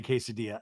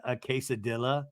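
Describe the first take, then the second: First: Said in the usual way. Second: "quesadilla" said kay-suh-DILL-uh, L's sounded; mispronounced quesadilla. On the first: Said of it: "saying it the correct way". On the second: Retold or imitated. Host echoes Mary's mistake, "quesadilla" with hard L's. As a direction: end "quesadilla" in "dilla", not "dee-ya". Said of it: "doesn't know how to say quesadilla".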